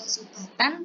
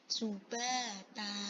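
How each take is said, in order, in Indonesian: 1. Kata ini berakhir dengan bunyi n. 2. Kata ini berakhir dengan vokal panjang. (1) "tidak dibaca subatan" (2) "tapi subata"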